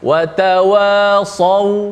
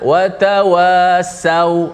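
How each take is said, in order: First: The s is pronounced as a heavy emphatic sound. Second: The s is pronounced as a plain light sound. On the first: The speaker calls it right. "pastikan disebut dengan saw. ... Watawasau gitu" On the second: The speaker calls it wrong. "Jangan watawasau"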